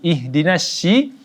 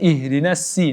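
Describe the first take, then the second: First: The s sound is pronounced as sh. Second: The s sound is a plain s. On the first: "dengan huruf uh, shi" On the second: "kita baca dengan huruf si"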